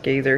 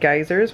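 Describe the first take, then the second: First: It is said with the local Icelandic pronunciation. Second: It is said with the usual English pronunciation.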